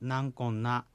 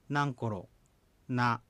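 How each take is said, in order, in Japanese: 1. 普通の速さでは続けて言い、rはnになる。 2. 一語ずつゆっくり言い、rの音は残す。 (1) "通常の速さの発音ではなんこんなというふうになります" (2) "一語ずつゆっくり発音すればなんころなですが"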